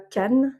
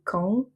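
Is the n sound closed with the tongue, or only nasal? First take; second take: closed; nasal. First: The tongue closes to make a full n. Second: The vowel is nasal with no tongue closure. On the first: The speaker calls it wrong. "et pas can" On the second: The speaker calls it right. "on va prononcer can"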